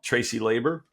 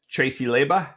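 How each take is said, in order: First: The name is said in a standard pronunciation. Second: The name is said in a local pronunciation.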